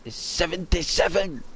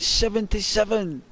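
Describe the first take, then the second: First: Said in the usual way. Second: "seventy-seven?" pitched higher in disbelief; incredulous. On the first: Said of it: "And she'd say". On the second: Retold or imitated. Teen hearing granddad's age, incredulous "seventy-seven?". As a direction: question "seventy-seven?" like you can't believe it.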